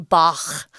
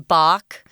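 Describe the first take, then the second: First: It is said the original German way. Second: It is said the everyday English way. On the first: The speaker calls it right. "it's actually Bach because it's German" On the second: The speaker calls it wrong. "Most people, everyday people, just say"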